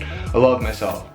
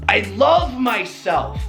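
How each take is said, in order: First: It is said flatly, with little energy. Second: It is said with excitement and energy. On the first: The words carry no real feeling. The speaker calls it wrong. "Didn't work" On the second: The words carry real feeling. The speaker calls it right. "It's the passion behind what you're saying"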